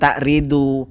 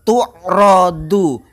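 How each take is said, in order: First: The verb begins with 'ta' and ends 'ridu'. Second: The verb begins with 'tu' and ends 'radu'. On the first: The speaker calls it wrong. "Bukan takridu" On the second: The speaker calls it right. "dijadikan e, bina majhul, tu'radu"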